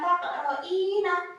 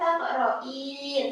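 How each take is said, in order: First: The word ends with a final vowel after n. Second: The word ends on the n sound. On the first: The word is read without pausing on it. The speaker calls it wrong. "bukan taqro'ina" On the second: The word is read with a pause at the verse end. The speaker calls it right. "tapi dibaca taqro'in"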